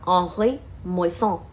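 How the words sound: The name is said with a French accent.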